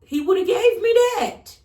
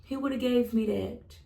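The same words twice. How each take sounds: First: Shouted higher and louder, "he woulda gave me that"; loud emphasis. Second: Said in the usual way. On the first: Real, not acted. To viewers about God and her nose, a loud high shout. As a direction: belt out "he woulda gave me that" as a declaration.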